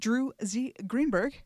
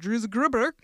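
First: The name is said slowly and carefully. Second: The name is said quickly and run together.

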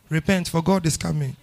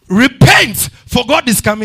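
First: It is said quietly, as if to himself. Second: It is said loudly, as a public proclamation.

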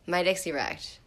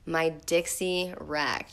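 First: The phrase is read at a fast pace. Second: The phrase is read at a slow, plain pace.

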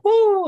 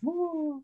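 First: It sounds really happy. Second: It sounds sad and despondent.

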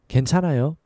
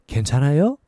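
First: The voice falls at the end. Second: The voice rises at the end. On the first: It states that one is okay. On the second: It asks whether someone is okay.

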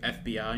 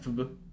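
First: The acronym is spelled out letter by letter. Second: The acronym is pronounced as one word. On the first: The speaker calls it right. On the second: The speaker calls it wrong.

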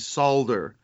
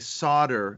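First: It is said in a British way. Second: It is said in an American way. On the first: This is how the local class says it. "and they say solder" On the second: This is the speaker's own habitual pronunciation. "I say solder"

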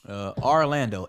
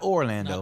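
First: The name begins with an 'ar' sound. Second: The name begins with an 'or' sound. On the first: The speaker calls it right. "A-R. L-A-N-D-O" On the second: The speaker calls it wrong. "Not Orlando"

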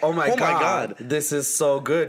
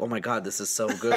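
First: The phrase is said loudly. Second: The phrase is said at a normal, quieter volume. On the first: The praise is meant for others to overhear. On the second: The praise is kept to oneself.

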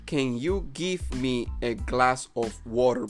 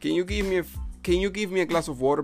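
First: "Give me" is said as two full words. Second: "Give me" is run together quickly as "gimme". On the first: "la forma correcta sería" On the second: "de una forma contraída y rápida se dice"

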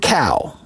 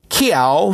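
First: No glide follows the k. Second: A y-like glide follows the k. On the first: This is the common pronunciation. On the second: This is an old local pronunciation.

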